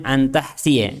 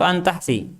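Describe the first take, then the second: First: An tahsiya with a clear -ya vowel on the end; reading with final ya. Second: An tahsi cut short, ending on the i; reading without ya. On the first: Teacher asking students which reading is right, tahsiya with ya. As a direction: pronounce tahsiya fully, sounding the final ya. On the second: Teacher offering the other reading, tahsi without ya. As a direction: say tahsi with no final ya. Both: Shown as a demonstration. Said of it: "apa yang benar bacaannya?".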